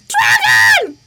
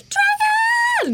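First: It is yelled very loudly. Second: It is said more softly.

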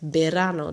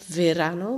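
First: The word begins with a soft b-like sound. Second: The word begins with a v sound. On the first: This is how the word is actually said. "maar je zegt verano" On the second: This is how the word is written. "je schrijft verano"

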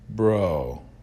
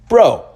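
First: It sounds disappointed. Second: It sounds shocked.

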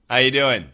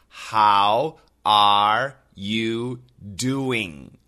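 First: The word are is dropped and words blend. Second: Each word is said fully, including are. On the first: This is how most people in America say hi. "Are is completely gone" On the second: This is the grammatically complete form. "grammatically, it is"

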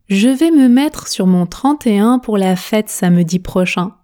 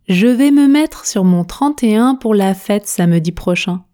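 The two takes are said the same way.

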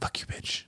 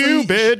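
First: The phrase is whispered under the breath. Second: The phrase is said aloud in full voice. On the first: The insult is muttered so the other person may not hear. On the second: The insult is said so the other person can hear it. "And now it's like louder"

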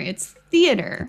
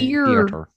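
First: No extra R sound is added mid-word. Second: An extra R sound is added mid-word. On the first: The speaker calls it right. "But there's no R in there" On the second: The speaker calls it wrong. "That I say theater weird"

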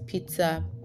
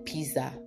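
First: The middle is said with a T sound. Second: The middle is said without a T sound. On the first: The speaker calls it right. "There is a T in the pizza" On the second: The speaker calls it wrong. "what Nigerians call pizza"

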